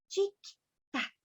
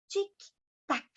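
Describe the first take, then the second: The two takes are said the same way.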